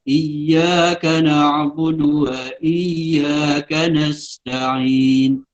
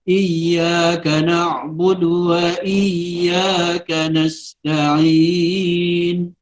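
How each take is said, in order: First: The final long vowel is held only briefly. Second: The final long vowel is held moderately long. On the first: "Kalau dua" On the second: "itu empat"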